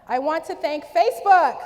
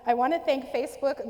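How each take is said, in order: First: It is said slowly. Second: It is said quickly.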